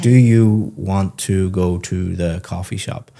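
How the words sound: Each word is said clearly and separately.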